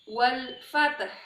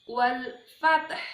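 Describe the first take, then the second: No difference in how they are said.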